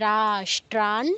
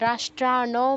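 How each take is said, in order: First: The final n is cut short, with no vowel. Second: The final n is followed by a full vowel. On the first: The speaker calls it right. "নয়ের নিচে হসন্ত আছে" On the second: The speaker calls it wrong. "কেউ আবার রাষ্ট্রান বলবেন না"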